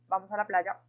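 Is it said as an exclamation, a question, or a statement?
statement. It is said as a plain statement. It gives an instruction. "primero lo hicimos de forma afirmativa, dando como una instrucción"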